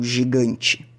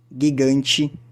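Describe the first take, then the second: First: The first consonant is a soft J sound. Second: The first consonant is a hard G sound. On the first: The speaker calls it wrong. "O G nunca vai ter som de J, nunca vai ser como girafa ou gigante" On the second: The speaker calls it right. "É sempre gui"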